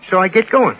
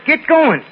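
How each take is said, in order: First: Said in the usual way. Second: Sharp high holler, going up in pitch; hollered order. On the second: Retold or imitated. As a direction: bark the order like a man in a hurry. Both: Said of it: "hops in and hollers".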